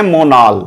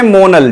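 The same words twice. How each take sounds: First: मोनाल said the Hindi way, long open 'aa' in the second syllable; Hindi-style मोनाल; Hindi pronunciation. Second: मोनल said the English way, short flat second vowel; English-style मोनल; English pronunciation. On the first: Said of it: "Hindi में बोलते हैं मोनाल". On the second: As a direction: say मोनल with a quick, light second syllable. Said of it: "इसे हम बोलते हैं मोनल". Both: Shown as a demonstration.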